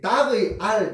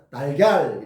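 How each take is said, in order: First: It is said as three separate syllables. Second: It is said as two smoothly linked syllables. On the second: "연결해서 발음을 부드럽게 하려고 하면"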